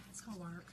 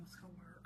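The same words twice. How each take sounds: First: Said in the usual way. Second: Whispered, almost voiceless. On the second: Real, not acted. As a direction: hush it to yourself. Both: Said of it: "repeated, then whispered".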